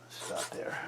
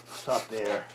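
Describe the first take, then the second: First: Breathy whisper, no voice. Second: Said in the usual way. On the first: Shown as a demonstration. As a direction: whisper it right after the spoken take. Repeats line, then whispers it.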